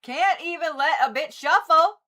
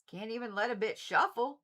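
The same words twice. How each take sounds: First: Higher and louder, fed up with the cards; exasperated complaint. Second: Said in the usual way. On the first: Real, not acted. To the tarot deck, louder and exasperated. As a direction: scold the deck for not letting her shuffle.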